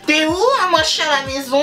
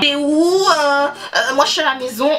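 First: It is said in a mocking put-on voice. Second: It is said in her normal voice.

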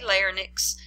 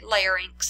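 First: The word is said as 'lar-nix'. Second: The word is said as 'lair-inks'. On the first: The speaker calls it wrong. "I didn't say larynx" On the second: The speaker calls it right. "I said larynx"

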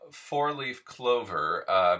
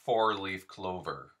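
First: The R sounds are weak and soft. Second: The R sounds are strong and hard.

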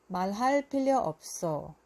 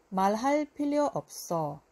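Both takes have the same delivery.

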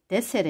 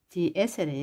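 First: The two words run together, vowel dropped. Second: The two words are said separately, vowel kept.

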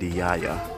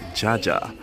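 First: The name begins with a Y sound. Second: The name begins with an English J sound. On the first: This is how Dutch speakers say it. "in Netherlands they pronounce the J as the letter Y in English" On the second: This is how English speakers would say it. "English speaker would pronounce it as Jaja"

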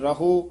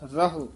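First: The word ends in a drawn-out long vowel. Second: The word is said quickly with a short ending. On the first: The speaker calls it wrong. "ਜੇ ਕਹਾਂਗੇ ਰਹੋ ਤਾਂ ਹੂੜਾ ਬੋਲਿਆ ਜਾਊ" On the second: The speaker calls it right. "ਛੇਤੀ ਬੋਲਾਂਗੇ ਤਾਂ ਸ਼ੁੱਧ ਬੋਲਿਆ ਜਾਊ"

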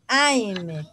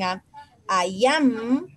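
First: The words are merged into one short syllable. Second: Both words are said fully and separately. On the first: "forma corta" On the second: "forma larga"

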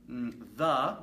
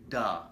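First: The word starts with a soft 'th' sound. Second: The word starts with a hard 'd' sound. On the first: The speaker calls it right. "Instead of saying the" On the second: The speaker calls it wrong. "you say duh"

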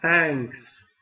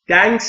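First: It starts with a soft th sound. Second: It starts with a d sound. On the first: The speaker calls it right. "نوک زبون زیر دندونهای نیش بالا" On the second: The speaker calls it wrong. "دنکس هم نیست"

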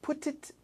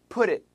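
First: The t is a clear, crisp t sound. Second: The t is linked and sounds like d. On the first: The speaker calls it wrong. "Put it 말고" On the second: The speaker calls it right. "T 연음할 때 it sounds like a D"

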